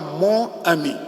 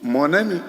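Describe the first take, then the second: First: The words are split with no n linking them. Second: The n sound links into the following vowel. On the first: The speaker calls it wrong. "On ne dit pas" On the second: The speaker calls it right. "On dit ... Il faut que le N vienne pour faire la liaison"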